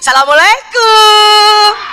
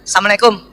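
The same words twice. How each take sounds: First: It is said in a lively, expressive way. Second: It is said in a plain, flat way.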